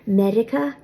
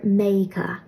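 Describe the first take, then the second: First: The middle consonant sounds like an r. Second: The middle consonant sounds like a y. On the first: "the word for America will be Medica" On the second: "R that has an I before it will often be pronounced like a Y"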